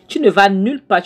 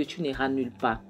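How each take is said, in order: First: Higher, louder threat; angry shout. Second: Said in the usual way. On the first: Acted. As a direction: bark the threat at her as he grabs her hand. Jonathan grabs Clara's hand, threatens.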